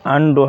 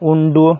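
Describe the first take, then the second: First: The first vowel is an open 'uh' sound. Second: The first vowel is a rounded 'oo' sound. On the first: The speaker calls it right. "আন্ডু হবে" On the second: The speaker calls it wrong. "উন্ডু বা উমব্রেলা নয় কিন্তু"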